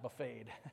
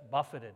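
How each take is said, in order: First: It sounds like the meal buffet with -ed. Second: It does not sound like the meal buffet. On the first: The speaker calls it wrong. "not buffeted. I know the buffet" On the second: The speaker calls it right. "that's buffeted"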